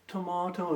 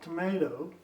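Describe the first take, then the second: First: It is said with a British accent. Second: It is said with an American accent.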